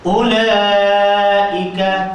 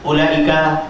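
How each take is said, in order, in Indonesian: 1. Vokal panjang dibaca tiga harakat. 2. Vokal panjang dibaca satu harakat. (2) "itu satu"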